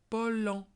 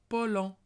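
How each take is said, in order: Both takes have the same delivery.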